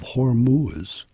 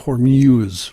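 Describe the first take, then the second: First: The last syllable does not sound like 'muse'. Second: The last syllable sounds like 'muse'. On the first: The speaker calls it right. "so I'll say it right now" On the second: The speaker calls it wrong. "like Muse"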